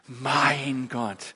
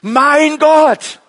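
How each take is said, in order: First: It is said tenderly, full of feeling. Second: It is said forcefully, with strength.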